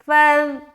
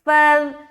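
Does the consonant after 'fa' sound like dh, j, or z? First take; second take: dh; dh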